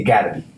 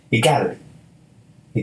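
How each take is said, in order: First: Said in the usual way. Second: "It gotta be" drawn out slowly, each word leaned on; slow emphatic repeat. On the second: Real, not acted. To listeners about self-love, "It gotta be" said slowly. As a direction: stretch out "It gotta be" like a vow.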